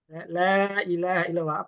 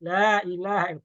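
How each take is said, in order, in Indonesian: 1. Vokal pada la dibaca empat harakat. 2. Vokal pada la dibaca dua harakat. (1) "Apakah kita harus membaca empat harokat?" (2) "Dua harokat boleh nggak?"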